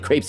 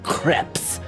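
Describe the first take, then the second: First: The word is said with an English pronunciation. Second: The word is said with a French pronunciation. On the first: The speaker calls it wrong. "You shouldn't say crepes" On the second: The speaker calls it right. "that's how they say it in France"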